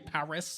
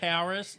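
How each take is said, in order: First: It is said in an Australian accent, without the R. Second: It is said with an American R sound.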